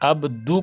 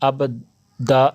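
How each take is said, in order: First: The word ends in a u vowel. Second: The word ends in an a vowel. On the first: The speaker calls it right. "अब्दु करना है" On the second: The speaker calls it wrong. "अब्दा नहीं"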